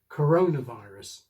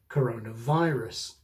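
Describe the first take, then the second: First: The main stress falls on the corona part. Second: The main stress falls on the virus part. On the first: "the basic rule is for the main accent to go on the first word" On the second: "which would make the second word more prominent"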